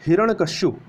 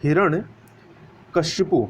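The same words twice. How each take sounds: First: हिरण्यकश्यप said plainly, ending in a short 'shyap'; हिरण्यकश्यप with no final 'u' sound; wrong spelling read out. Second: हिरण्यकश्यपु drawn out slowly with a clear final 'pu'; correct spelling stressed. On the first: Teacher reads the misspelt हिरण्यकश्यप to the class, plain. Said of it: "ये आपका अशुद्ध है". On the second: Teacher slowly models the correct हिरण्यकश्यपु to the class. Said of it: "इस प्रकार से लिखा जाएगा". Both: Shown as a demonstration.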